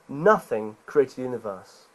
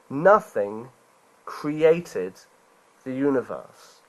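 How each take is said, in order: First: It is said at normal speed. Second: It is said slowly.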